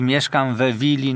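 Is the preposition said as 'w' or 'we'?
we. It has the Poznań form 'we' before willi.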